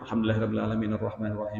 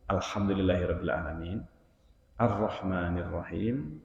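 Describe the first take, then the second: First: The verses run on without any pause. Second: There is a pause after each verse. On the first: The speaker calls it wrong. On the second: The speaker calls it right. "Rasulullah memutus setiap ayat"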